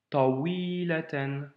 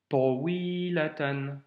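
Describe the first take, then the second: No difference in how they are said.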